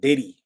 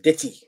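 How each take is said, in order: First: The middle consonant is a soft d-like flap. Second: The middle consonant is a crisp t sound. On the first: The speaker calls it wrong. "not Diddy" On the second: The speaker calls it right. "but Ditty"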